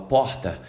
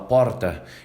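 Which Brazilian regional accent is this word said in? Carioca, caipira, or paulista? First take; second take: carioca; paulista. First: It is said in a Rio de Janeiro accent. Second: It is said in a São Paulo accent. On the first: "O carioca fala porta" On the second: "o paulista fala porta"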